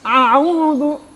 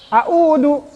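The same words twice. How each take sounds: First: Both opening consonants are throaty ain sounds. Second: Both opening consonants are plain glottal stops. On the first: "Atau jadi ain-ain" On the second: "malah alif-alif misalkan"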